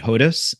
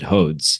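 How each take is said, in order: First: The name ends with a 'diss' sound. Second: The name ends with a 'dz' sound. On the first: This is the older family pronunciation. "my grandfather pronounced it Hodis" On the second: This is the pronunciation the speaker grew up with. "my father pronounced it Hodes"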